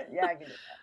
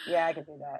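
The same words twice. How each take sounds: First: Higher, softer flat robot reply. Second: Flat, low bored robot voice. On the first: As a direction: chirp it like a tired robot butler. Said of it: "laughs, repeated answer". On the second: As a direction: answer like a bored machine. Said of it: "If people are thick, they don't get that, you know". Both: Retold or imitated.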